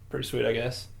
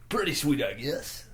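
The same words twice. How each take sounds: First: It is said in a natural, everyday voice. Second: It is said in a put-on announcer voice.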